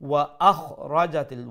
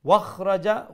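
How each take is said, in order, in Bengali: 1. 'wa' আর 'akhrajat'-এর মাঝে একটি গ্লটাল ক্যাচ আলাদা করে। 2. 'wa' গ্লটাল ক্যাচ ছাড়াই 'akhrajat'-এর সাথে মিশে যায়।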